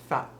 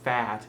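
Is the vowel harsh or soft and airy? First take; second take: airy; harsh. First: The vowel is soft and airy. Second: The vowel is harsh and aggressive. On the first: The speaker calls it right. "A little more airy" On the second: The speaker calls it wrong. "you're not saying it so aggressively"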